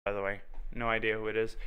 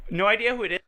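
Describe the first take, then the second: First: Said in the usual way. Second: High sing-song mock; mocking imitation. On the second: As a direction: say it in a higher teasing voice. Mimics own line again.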